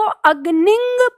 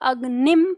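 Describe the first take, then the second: First: The word ends in a nasal ng sound. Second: The word ends in a closed m sound. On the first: The final dot would be read as a nasal vowel mark. "आप इसको अग्निंग पढ़ते तो ये अनुस्वार आपका होता" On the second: The final dot is read as a half m. "अंतिम विंदी आपकी जब आ जाती है तो उसे आप अग्निम पढ़ते हैं"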